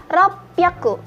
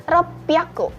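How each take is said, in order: The two takes are said the same way.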